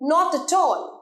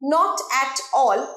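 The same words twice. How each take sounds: First: The words run together smoothly. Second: The words are said separately. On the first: The speaker calls it right. "একসাথে" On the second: The speaker calls it wrong. "এভাবে বলি না আমরা"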